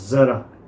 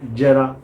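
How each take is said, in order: First: It starts with a z sound. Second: It starts with a j sound. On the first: "ज़रा शब्द है" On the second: "बहुत लोगों को बोलते सुना है"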